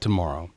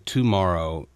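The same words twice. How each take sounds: First: The first syllable is light and reduced. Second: The first syllable is clearly stressed and full. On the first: The speaker calls it right. "I think it's tomorrow" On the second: The speaker calls it wrong. "accenting the T-O"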